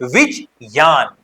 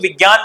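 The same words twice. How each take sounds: First: The cluster is said with a clear 'j' sound. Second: The cluster is said without a clear 'j' sound. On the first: This is the pure Sanskrit pronunciation. "संस्कृत में इसका शुद्ध उच्चारण" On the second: This is the everyday way people say it. "आमतौर पर तो विज्ञान बोल लेते हैं"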